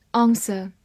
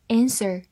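First: Said in the usual way. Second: "answer" opening on the American "a" of "cat"; American pronunciation. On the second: Shown as a demonstration. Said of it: "美式发音". (美式发音 answer，开头读 cat 里的 a)

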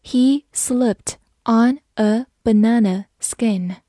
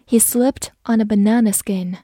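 First: Slow, word-by-word model reading; slow read-through. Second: Said in the usual way. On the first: Shown as a demonstration. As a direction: take the sentence slowly, each word apart. (慢慢地逐词朗读) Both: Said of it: "慢慢来读".

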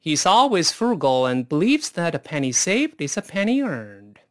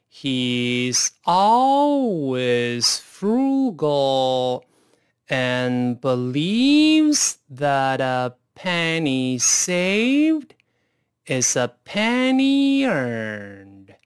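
First: Quicker, flowing read with linked words; faster. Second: Very slow, drawn-out read with each word stretched; slowest speed. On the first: Teacher showing students the sentence read faster. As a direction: run it together at a natural clip. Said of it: "咱们再快一点试试看". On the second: Teacher modelling the sentence for students at slowest speed. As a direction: spell out every word slowly for the learners. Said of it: "先用最慢的速度来一遍". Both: Shown as a demonstration.

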